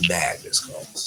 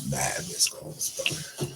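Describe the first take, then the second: First: Said in the usual way. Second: Slow stunned disbelief. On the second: Real, not acted. Looking at his phone full of missed calls, slow and stunned. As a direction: drag out mad missed calls slowly, breathy.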